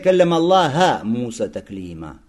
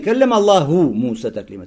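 First: The word Allah ends with an 'a' vowel. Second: The word Allah ends with a 'u' vowel. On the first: Moses spoke to God. The speaker calls it wrong. "Замени что «дамму» на «фатху»" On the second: God spoke to Moses. The speaker calls it right. "ты читай не"

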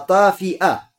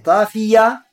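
First: The word has a glottal stop inside it. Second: The word has no glottal stop inside it. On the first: The eye is extinguished, without its light. "тафия с гамзой" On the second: The eye bulges out like a protruding grape. "Не тафия"

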